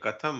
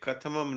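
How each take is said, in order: First: The word has two syllables, ending after 'tham'. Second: The word has three syllables, ending in extra 'am'. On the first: The speaker calls it right. "कथम है" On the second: The speaker calls it wrong. "कथमम नहीं है"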